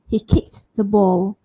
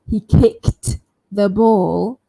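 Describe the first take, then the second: First: The t in 'kicked' is said lightly and softly. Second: The t in 'kicked' is said strongly and emphasized. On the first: "then I can say the t lightly or softly" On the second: "So I don't have to emphasize"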